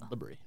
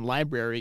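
First: A middle syllable is dropped from the word. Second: All three syllables are pronounced in full.

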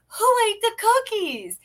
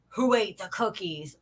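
First: The tone is cheerful and excited. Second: The tone is stern and accusing. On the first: A cookie treat may be coming. "when you're happy about cookies" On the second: Something bad happened with the cookies. "when you're saying something bad about cookies"

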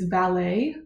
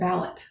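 First: It is pronounced the way a car valet is. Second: It is pronounced the way a personal servant is. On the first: It refers to someone who parks cars. The speaker calls it wrong. "that's like how you pronounce it" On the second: It refers to a personal manservant. The speaker calls it right. "when it's a person, it's a valet"

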